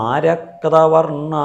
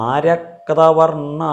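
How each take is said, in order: The two takes are said the same way.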